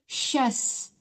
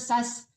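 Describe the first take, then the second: First: It begins with an 'sh' sound. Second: It begins with a plain 's' sound. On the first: The speaker calls it right. "Tapi syas" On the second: The speaker calls it wrong. "Jangan sin duanya, jangan sas"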